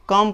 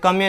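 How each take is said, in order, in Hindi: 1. शब्द के अंत में कोई अंतिम स्वर ध्वनि नहीं है। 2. शब्द के अंत में एक अतिरिक्त अंतिम स्वर ध्वनि जुड़ी है। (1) "कम पढ़े" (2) "कमे नहीं"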